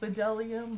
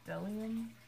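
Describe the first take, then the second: First: The name begins with a B sound. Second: The name begins with a D sound. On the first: The speaker calls it wrong. "it's spelled Bedelium" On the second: The speaker calls it right. "but it's Delium"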